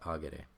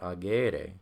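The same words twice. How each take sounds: First: The middle vowel is short. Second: The middle vowel is long. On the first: The speaker calls it right. "it's agere. That E, that A, is short" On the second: The speaker calls it wrong. "It's not agere"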